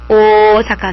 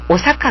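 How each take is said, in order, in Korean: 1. 첫 모음은 길어요. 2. 첫 모음은 짧아요. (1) "오사카 길다는 거죠" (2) "우리는 뭐라고? 오사카 그러잖아"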